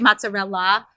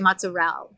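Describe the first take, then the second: First: The word is said in a standard, full way. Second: The word is said in a clipped New Jersey way. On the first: "They don't say" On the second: "they say"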